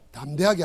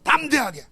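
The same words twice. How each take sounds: First: The first syllable is said weakly, without force. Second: The first syllable is said with strong force. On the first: The speaker calls it wrong. "담대하게 하지 말고" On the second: The speaker calls it right. "담자다가 힘을 줘야 돼. 악센트를 담자야 돼"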